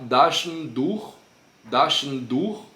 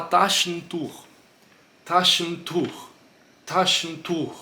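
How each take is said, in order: First: Taschentuch as daschentuch, no puff; soft D onset on Taschentuch. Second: Taschentuch with a hard aspirated T; explosive T. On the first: Teacher shows the unaspirated version. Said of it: "não sofre a alteração". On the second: Teacher tests aspirated T with paper. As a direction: blow the T of Taschentuch onto the paper. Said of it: "esse aqui ele já vem mais explosivo". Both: Shown as a demonstration.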